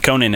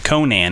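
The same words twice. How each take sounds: First: The name is pronounced the talk-show host's way. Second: The name is pronounced the barbarian character's way. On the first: It names the late night show host. "Conan is a late night show host" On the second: It names the barbarian. "Conan is a barbarian"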